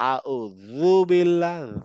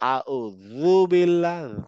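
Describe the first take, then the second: First: The consonant is a buzzing th-like sound. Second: The same.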